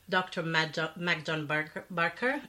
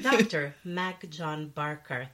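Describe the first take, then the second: First: It is said in an ordinary speaking voice. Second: It is said in a polished announcer voice. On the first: The speaker calls it wrong. "I can't even say their name" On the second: The speaker calls it right. "Using my radio voice now"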